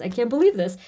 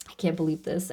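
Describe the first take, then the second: First: Disbelief said out to the viewers; exclaimed disbelief at the reading. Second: Softer, lower, stunned disbelief; quiet disbelief to herself. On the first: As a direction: let the amazement come out. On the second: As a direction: say it to yourself, overwhelmed. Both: Real, not acted. Overwhelmed by card message.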